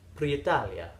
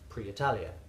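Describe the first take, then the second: First: It is said in an Italian accent. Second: It is said in a plain English accent.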